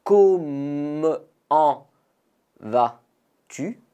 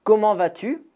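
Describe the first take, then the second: First: Comment drawn out with a silent T, vas-tu? rising; slow model. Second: Comment vas-tu? pitched high with a rising question tune; model question. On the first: Teacher explains the silent T and says it slowly. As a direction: stretch Comment slowly, drop the T. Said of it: "Le T est muet". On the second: Teacher models Comment vas-tu? for learners, high and rising. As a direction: ask it brightly, rise at the end. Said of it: "répétez après moi". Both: Shown as a demonstration.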